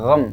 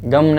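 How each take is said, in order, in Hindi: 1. पहली ध्वनि गले वाली gh है। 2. पहली ध्वनि साधारण कठोर g है। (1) "बल्कि गम" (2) "गम नहीं"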